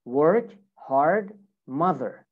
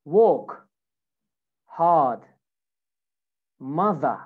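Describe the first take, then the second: First: American "work, hard, mother" with every R sounded; American accent. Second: British "Walk, hard, mother" with each R dropped; non-rhotic British demo of "Walk, hard, mother"; British accent. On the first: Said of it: "American English". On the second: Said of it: "British version". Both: Shown as a demonstration.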